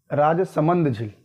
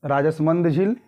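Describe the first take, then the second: First: राजसमंद said slowly as "राज-समंद", syllables spelled out; alternate pronunciation. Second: Said in the usual way. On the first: Shown as a demonstration. Teacher showing students the other way to say राजसमंद, slow and careful. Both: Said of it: "ऐसे भी कह सकते हैं".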